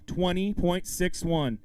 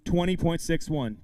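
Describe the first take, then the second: First: "Twenty point six one" slow and drawn out; slow repeat. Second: Said in the usual way. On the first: Real, not acted. Emcee repeating the angler's target, "Twenty point six one" said slowly. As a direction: stretch out "Twenty point six one", spacing each word.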